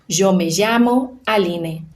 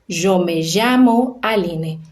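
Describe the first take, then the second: The two takes are said the same way.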